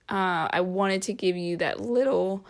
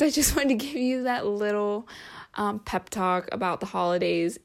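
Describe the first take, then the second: First: A real crack mid-word. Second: Said in the usual way. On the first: Real, not acted. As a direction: voice cracks on little. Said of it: "whoa, my voice just cracked". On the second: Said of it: "my voice just cracked".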